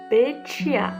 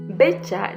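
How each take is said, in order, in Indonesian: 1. Pengucapannya cara Hokkien. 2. Pengucapannya cara Indonesia.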